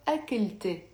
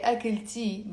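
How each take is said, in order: First: أكلت ending in "-te", not "-tee"; أكلت with an open final "e"; Lebanese "e" ending. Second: أكلتي ending in a clear "-tee"; أكلتي with final "ee" instead of "e"; non-Lebanese "ee" ending. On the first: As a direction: say أكلت as "akil-te". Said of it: "always pronounce it as a e". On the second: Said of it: "it's not like a Lebanese accent". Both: Shown as a demonstration.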